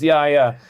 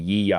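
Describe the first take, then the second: First: The name is said as two 'ya' syllables. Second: The name is said with a 'yee' start. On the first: This is the intended name. The speaker calls it right. "It's Yaya" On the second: This is how other people misread it. The speaker calls it wrong. "which everybody mispronounces"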